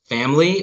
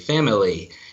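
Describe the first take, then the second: First: The word is said with two syllables. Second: The word is said with three syllables. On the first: "Is it two" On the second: "or is it three"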